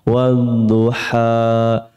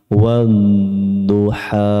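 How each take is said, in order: The two takes are said the same way.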